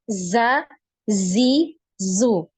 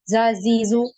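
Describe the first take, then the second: First: The z sound buzzes on before each vowel. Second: The z sound is cut short with no buzz. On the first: The speaker calls it right. "Ini pasti ada alirannya" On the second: The speaker calls it wrong. "Jadi tidak langsung za, zi, zu. Nah, tanpa ada aliran"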